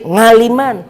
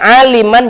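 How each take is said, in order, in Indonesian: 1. Kata itu dimulai dengan bunyi 'ng' yang ditambahkan. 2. Kata itu dimulai dengan bunyi vokal biasa. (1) "jadi ngaliman" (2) "orang namanya aliman"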